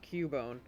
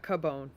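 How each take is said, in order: First: The first syllable sounds like 'cue'. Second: The first syllable sounds like 'kuh'. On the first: The speaker calls it right. "it's actually pronounced Cubone. That that's why the C U is Q" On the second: The speaker calls it wrong. "It's not Cabone"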